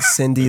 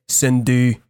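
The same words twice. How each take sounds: First: It is said with an English pronunciation. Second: It is said with a Quebec French accent.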